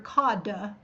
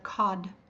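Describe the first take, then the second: First: The final d is drawn out with a vowel. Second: The final d is very short and clipped. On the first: The speaker calls it wrong. "you don't hear cod" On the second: The speaker calls it right. "you just hear cod"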